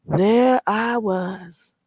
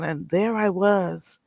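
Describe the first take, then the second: First: Drawn out very slowly, There I was as a dramatic pause. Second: Said in the usual way. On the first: Retold or imitated. Telling chat about the beach wedding, slow dramatic pause. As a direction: stretch There I was out for comic effect.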